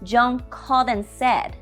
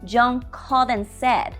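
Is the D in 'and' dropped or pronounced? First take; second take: dropped; dropped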